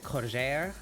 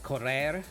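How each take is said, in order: First: The r sounds are a breathy zh. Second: The r sounds are rolled. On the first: "become more like a zh sound ... so it's more breathy" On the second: "instead of saying like correr"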